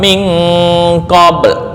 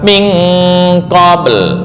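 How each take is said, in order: First: The word ends without the final l sound. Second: The word ends with an audible final l sound. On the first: A letter is left out. The speaker calls it wrong. "lamnya kemana?" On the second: Every letter is kept. The speaker calls it right. "Harus lengkap"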